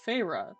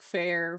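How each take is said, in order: First: The name is said as Feyre. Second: The name is said like fair. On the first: The speaker calls it right. "I knew this name was pronounced Feyre" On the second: The speaker calls it wrong. "I kept trying to read it in different ways, like fair"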